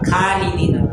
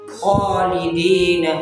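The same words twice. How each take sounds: First: The first sound is light and thin. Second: The first sound is heavy and full. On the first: The speaker calls it wrong. "ऐसे बन जाएगा खा खालिदीन, तो ये गलत है" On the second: The speaker calls it right. "उसको हमने पुर पढ़ना है, मोटा पढ़ना है"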